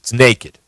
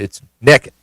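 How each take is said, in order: First: It is said as 'naked', with an 'ay' vowel. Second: It is said as 'nekkid', with a short 'eh' vowel. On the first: This is how it is said in the cities. "If you're in the cities, it's naked" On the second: This is how it is said in the rural hills. "in if this is rural Kentucky, and I think it is, uh, it's naked"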